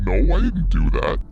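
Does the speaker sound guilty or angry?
angry. It sounds angry and belligerent.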